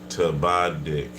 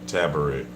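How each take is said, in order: First: The middle consonant is a D sound. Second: The middle consonant is an R sound. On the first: The speaker calls it right. "Biz is Tabadik" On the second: The speaker calls it wrong. "not Tabarik. You've been saying it wrong"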